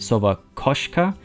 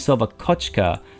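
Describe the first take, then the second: First: The second word has an sh sound in the middle. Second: The second word has a ch sound in the middle. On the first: The speaker calls it right. "it's supposed to be Sova Koshka" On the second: The speaker calls it wrong. "it's not supposed to be Sova Kochka"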